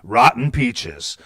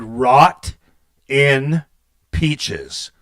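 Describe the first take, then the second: First: It is said quickly, words run together. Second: It is said slowly as three separate words.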